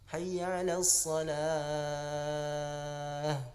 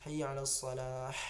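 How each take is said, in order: First: The final h is a light breathy throat sound. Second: The final h is a harsh, raspy sound. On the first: The speaker calls it right. "Itu yang benar" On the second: The speaker calls it wrong. "Matinya itu dipedaskannya"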